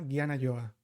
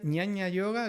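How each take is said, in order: First: The first word starts with a 'gy' sound. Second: The first word starts with a 'ny' sound. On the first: This is the northern Indian form. "En el norte de la India se lo llama" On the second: This is the southern Indian form. "es como se lo llama en el sur de la India"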